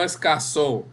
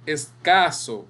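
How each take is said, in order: First: "escaso" said as escasÓ, stress on the last O; wrong-word demo, "escaso" stressed es-ca-SÓ; stress on final syllable. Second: "Escaso" said es-CA-so, stress on CA; correcting take, "Escaso" with a long stressed CA; stress on middle syllable. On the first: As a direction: land "escaso" on the end: es-ca-SÓ. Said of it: "Porque escaso existe". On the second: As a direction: lean on the CA in "Escaso", letting the last O drop. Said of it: "en este caso es escaso". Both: Shown as a demonstration.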